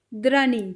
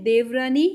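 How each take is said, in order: First: दरानी squeezed to draani, falling; Punjabi pronunciation. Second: देवरानी with dev fully sounded, rising; Hindi pronunciation. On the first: Teacher contrasting Punjabi with Hindi for learners, Punjabi pronunciation. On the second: Teacher contrasting Hindi with Punjabi for learners, Hindi pronunciation. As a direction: keep the v in देवरानी. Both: Shown as a demonstration. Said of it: "थोड़ा बोलने में फ़र्क है".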